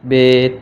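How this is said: The letter is named the Urdu way.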